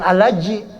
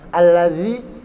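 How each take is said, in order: First: The middle consonant is a j sound. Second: The middle consonant is a voiced th sound. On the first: The speaker calls it wrong. "Jangan alaji. Kalau alaji salah" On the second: The speaker calls it right. "Alladzi itu zal"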